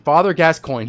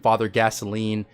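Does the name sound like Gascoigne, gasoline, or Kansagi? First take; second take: Gascoigne; gasoline. First: The name is said like gas-coin. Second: The name is said like the word gasoline. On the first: The speaker calls it right. "But his name is Father Gascoigne" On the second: The speaker calls it wrong. "all kinds of weird pronunciations"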